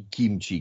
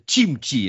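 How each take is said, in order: First: The word begins with a 'k' sound. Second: The word begins with a 'ch' sound. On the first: This is the southern name. The speaker calls it wrong. "а не кимчи. Кимчи это там на юге где-то" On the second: This is the local northern name. The speaker calls it right. "Капуста по-нашему называется чимчи"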